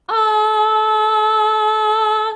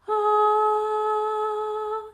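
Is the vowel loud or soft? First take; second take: loud; soft. First: The vowel is louder and carries further. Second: The vowel is soft and quiet. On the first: "the second one is louder" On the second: "the softer one"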